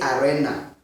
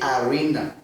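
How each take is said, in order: First: It is pronounced in a non-English way. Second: It is pronounced in the English way. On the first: The speaker calls it wrong. "In English, we don't say arena" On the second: The speaker calls it right. "We say arena"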